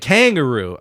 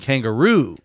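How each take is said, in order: First: The stress is on the first syllable. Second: The stress is on the last syllable. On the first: The speaker calls it wrong. "He's saying kangaroo. ... putting the emphasis on the beginning" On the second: The speaker calls it right. "I'm saying kangaroo"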